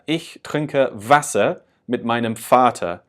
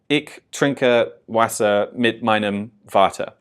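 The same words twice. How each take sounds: First: The W and V take German sounds. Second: The W and V sound like English W and V. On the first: The speaker calls it right. "especially on that W and V, you can really hear that" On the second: The speaker calls it wrong. "when I was first starting out, I probably would have said this as"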